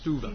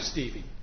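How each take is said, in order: First: The name is said with a German umlaut vowel. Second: The name is said with an anglicized vowel. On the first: This is how speakers of German would say it. "because it's spelled with an umlaut, it's pronounced Stuva" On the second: This is how the bearer says his own name. "It's Patrick Stevie"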